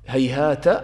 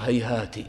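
First: The word ends with an a vowel. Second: The word ends with an i vowel.

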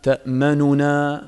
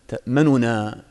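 First: The first n's vowel is fully and clearly voiced. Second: The first n's vowel is only hinted, said quickly. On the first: The speaker calls it wrong. "ما تشبع الضمة، ما تقول ما لك لا تأمننا" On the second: The speaker calls it right. "يعني هكذا تقرأ ... هكذا سريعا"

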